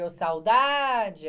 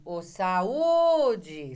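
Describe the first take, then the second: First: Ô saudade called out louder and very slowly, the au in saudade gliding together; called out, drawn out. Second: Ô saúde called out louder, the stressed ú in saúde standing alone. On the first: Teacher contrasting saudade with saúde, slow loud call. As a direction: draw saudade out like a long call across the room. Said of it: "Diferente de". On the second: Teacher demonstrating where the stress falls, loud call. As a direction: call saúde like hailing a friend, landing on the ú. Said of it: "Você faz assim". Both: Shown as a demonstration.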